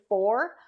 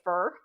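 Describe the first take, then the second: First: The word is said with a clear, full vowel. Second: The word is said slackly, sounding like 'fur'. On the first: The speaker calls it right. "instead of saying for" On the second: The speaker calls it wrong. "I will say fur, like F U R"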